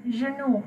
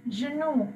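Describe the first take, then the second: No difference in how they are said.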